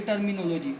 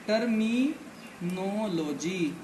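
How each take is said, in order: First: Said in the usual way. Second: terminology stretched out very slowly, syllable by syllable; slow, drawn out. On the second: Shown as a demonstration. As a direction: draw out terminology slowly so students catch every syllable. (Terminology को बहुत धीरे, खींचकर बोलना)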